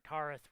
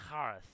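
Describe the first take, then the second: First: The first sound is a plain K. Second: The first sound is a throaty rasp.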